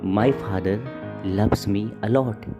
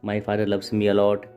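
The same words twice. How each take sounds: First: It is said with varied, lively pitch. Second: It is said flatly, with little variation. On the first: The speaker calls it right. "ये voice modulation है। Like" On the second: The speaker calls it wrong. "उन्होंने सीधा सीधा बोल दिया। लेकिन यह बोलने का सही तरीका नहीं है।"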